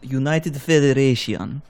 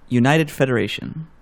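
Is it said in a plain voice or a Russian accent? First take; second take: Russian accent; plain. First: It is said in a put-on Russian accent. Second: It is said in the speaker's plain accent.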